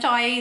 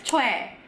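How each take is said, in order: First: The vowel sounds like 'oy' in boy. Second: The vowel sounds like 'weh' after 'ch'. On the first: The speaker calls it wrong. "dibacanya sebenarnya bukan choi" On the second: The speaker calls it right. "dia dibacanya chue"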